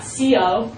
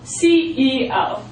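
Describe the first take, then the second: First: The middle letter E is left out. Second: All three letters C, E, O are said. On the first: The speaker calls it wrong. "not C O" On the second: The speaker calls it right. "you pronounce it like that"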